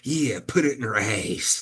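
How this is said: It is said in a Southern bumpkin accent.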